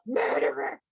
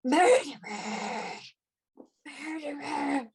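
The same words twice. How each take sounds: First: Ghostly cry. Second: Drawn-out, slow anguished cry of a ghost; ghostly cry. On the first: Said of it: "the voice cries out". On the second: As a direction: wail it out slowly, like a spirit seeking justice. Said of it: "another voice within you, uh, that cries out". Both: Acted.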